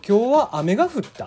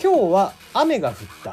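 First: It has reversed Kagoshima intonation. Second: It has standard Japanese intonation.

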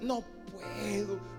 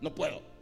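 First: It sounds regretful, as if wishing to help. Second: It sounds curt and dismissive.

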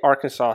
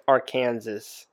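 First: The word ends without an S sound. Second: The word ends with an S sound. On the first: The speaker calls it right. "she doesn't say Arkansas" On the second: The speaker calls it wrong. "She says Arkansas. That's how it's spelled"

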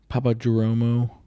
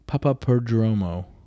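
First: The surname is said like 'Jeromo'. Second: The surname is said like 'Perdromo'. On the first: The speaker calls it wrong. "That's not how you say his name" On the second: The speaker calls it right. "Papa Perdromo is how I believe it's called"

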